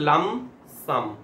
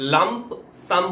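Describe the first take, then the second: First: The p in lump is silent. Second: The p in lump is clearly pronounced. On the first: The speaker calls it right. "পি silent হবে, পি এ pronounce হয় না" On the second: The speaker calls it wrong. "লাম্প সাম বলবো না"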